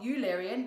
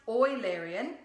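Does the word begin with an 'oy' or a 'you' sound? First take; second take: you; oy. First: The word begins with a 'you' sound. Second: The word begins with an 'oy' sound. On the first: The speaker calls it wrong. "not Eularian" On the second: The speaker calls it right. "It is pronounced Eularian"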